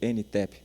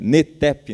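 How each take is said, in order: First: The letter N is said in the São Paulo way. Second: The letter N is said in the northeastern way. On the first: This is how the speaker says it. "Eu falo NTEP. Sou de São Paulo" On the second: This is how local people say it. "Igual vocês falam aqui"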